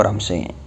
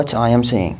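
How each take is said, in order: First: What I'm saying run together quickly; fast connected speech. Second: Said in the usual way. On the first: Shown as a demonstration. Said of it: "مع السرعة لازم تقول". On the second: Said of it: "أو".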